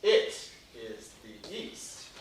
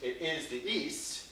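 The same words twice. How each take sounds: First: "is" leaned on, the words drawn out slowly; slow, weighted reading with "is" lifted; stress on is. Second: "It is the east" said softly and slowly, a different word weighted; a quieter, slower second reading; soft slow take that shifts the stress; alternate stress. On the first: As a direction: hang on "is" in "It is the east", slow and deliberate. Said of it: "I might want to say". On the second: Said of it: "Or I could choose to say". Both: Shown as a demonstration.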